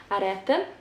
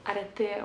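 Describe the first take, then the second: First: Arete said a-DET-en, rising at the end; unsure pronunciation. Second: Arete said softer, as a-DET-eh; alternative pronunciation. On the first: Unsure of the Serbian publisher's name, tentative rising a-DET-en for Arete. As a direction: try Arete as a questioning a-DET-en. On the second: Second guess at the publisher's name, softer a-DET-eh for Arete. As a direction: offer Arete quietly as a-DET-eh, open final vowel. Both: Shown as a demonstration. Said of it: "or I'm not sure".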